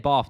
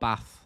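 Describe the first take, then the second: First: It is said with a non-northern accent. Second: It is said with a northern accent. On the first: "Same way I say bath" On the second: "not not bath. That's a northern thing"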